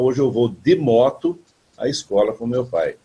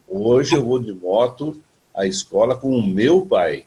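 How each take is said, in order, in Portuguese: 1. A palavra moto tem o acento principal. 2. A palavra pai tem o acento principal. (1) "A novidade seria a moto" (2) "Mas eu vou todo dia com alguém que me leva de moto. Mas daí eu vou mudar a entonação"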